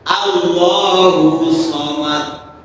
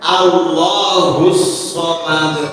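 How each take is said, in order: First: The s sound before Somad is single. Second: The s sound before Somad is doubled. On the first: The speaker calls it wrong. "Huruf Sod itu tidak ditasdidkan" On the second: The speaker calls it right. "Padahal harusnya"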